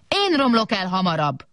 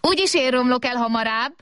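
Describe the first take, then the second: First: Mild boastful whoop, falling from high; big robot's whoop. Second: Put-on high, held, childlike boast; little robot's cry. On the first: Big robot answering the small one, mild whoop. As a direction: call it out in rivalry, pitch falling. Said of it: "kurjantott a nagy robot". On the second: Small robot outdoing the big one, high cry. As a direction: cry it out high, defiantly, without much volume. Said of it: "kiáltott a kis robot". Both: A narrator's reading.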